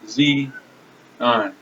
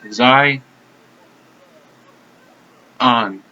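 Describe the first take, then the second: First: The first syllable sounds like the letter Z. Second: The first syllable rhymes with 'eye'. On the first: The speaker calls it wrong. "Not Z on" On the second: The speaker calls it right. "Zai, it rhymes with I"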